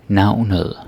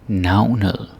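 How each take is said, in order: Both takes have the same delivery.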